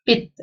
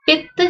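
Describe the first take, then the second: First: पित्त with a single light t; पित्त said short, no stress on t; without addhak. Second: पित्त with a doubled t, stressed; with addhak. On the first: Teacher shows पित with no addhak, light t. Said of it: "यहाँ पे नहीं पड़ेगा". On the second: Teacher shows पित्त with addhak, heavy t. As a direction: lean on the tt in पित्त. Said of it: "त के ऊपर यहाँ जोर पड़ रहा है". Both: Shown as a demonstration.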